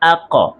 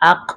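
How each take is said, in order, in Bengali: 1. শেষ ব্যঞ্জনটি হালকা একটু প্রতিধ্বনিত ধাক্কা দিয়ে শেষ হয়। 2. শেষ ব্যঞ্জনটি সমানভাবে থেমে যায়, কোনো রেশ থাকে না। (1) "হালকা একটু ধাক্কা দিয়ে" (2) "সরাসরি আক উচ্চারণ না হয়ে"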